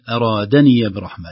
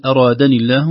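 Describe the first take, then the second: First: "أرادني" said as in "أرادني برحمة"; ya read by context. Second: "أرادني" without the open ya; "أرادني الله" with the ya dropped; wrong, ya not opened. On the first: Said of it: "ياؤها مفتوحة". (ياء الإضافة في "أرادني برحمة") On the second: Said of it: "لا نقول". (خطأ في ياء الإضافة) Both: Shown as a demonstration.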